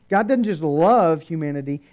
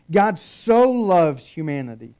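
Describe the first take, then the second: First: "love" punched as the lesser word; emphatic "love", falling away after it; stress on LOVE. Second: "so" punched loud and held; forceful stretched "so" before "loves humanity"; emphatic SO. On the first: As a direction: hit "love" to set up a contrast. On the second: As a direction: lean hard on "so", louder than the rest. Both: Shown as a demonstration. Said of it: "It's emphatic".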